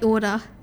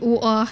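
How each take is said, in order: First: It is said in an Australian accent. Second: It is said in a British accent.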